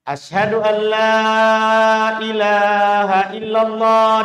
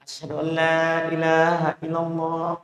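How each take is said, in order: First: It is said in a loud, long voice. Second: It is said in a quiet, small voice.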